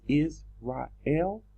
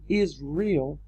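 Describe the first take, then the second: First: The word does not sound like 'is real'. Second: The word sounds like 'is real'. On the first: The speaker calls it right. "the correct pronunciation is Israel" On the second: The speaker calls it wrong. "how is it we're saying Israel"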